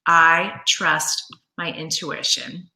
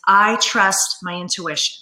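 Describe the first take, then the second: First: Slow, drawn out for note-taking; slow dictation. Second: Said in the usual way. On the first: Shown as a demonstration. Coach repeats affirmation slowly for viewers writing it down. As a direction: let each word land so they can write. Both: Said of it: "So write that down".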